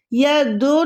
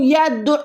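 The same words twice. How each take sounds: First: यदु with an open drawn "doo" and no throat catch; slow यदु without the ain; mistake, open ending. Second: यदु closed with a tight throat catch; careful "ya-du'" for यदु; ain joined to daal. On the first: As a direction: say यदु as "ya-doo", letting the vowel run. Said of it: "यदु नहीं पढ़ रही". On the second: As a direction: say यदु ending abruptly in the throat. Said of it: "दाल के साथ मिला रही हूँ". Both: Shown as a demonstration.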